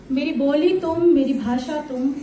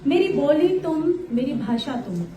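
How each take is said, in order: Both takes have the same delivery.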